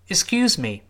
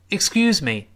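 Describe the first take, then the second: No difference in how they are said.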